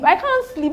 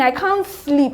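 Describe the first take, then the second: First: Much higher, cracking with distress; desperate tearful repeat; rising anguish. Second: Strained, close to tears; exhausted and tearful; tearful plea. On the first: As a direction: let the repeat break into despair. Repeats line, pitch jumps. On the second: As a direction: say it as if worn out and about to cry. Repeats line in distress. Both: Real, not acted.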